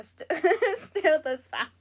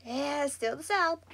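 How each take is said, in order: First: Laughs through the words; amused, breaking into a laugh mid-phrase. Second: Said in the usual way. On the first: Real, not acted. Answering a commenter, amused.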